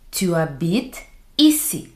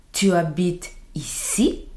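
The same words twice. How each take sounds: First: Said in the usual way. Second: "ici" swoops up at the end; rising question intonation. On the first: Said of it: "You say a normal sentence". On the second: Shown as a demonstration. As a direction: ask it by raising the voice on "ici". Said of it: "raise your voice at the end".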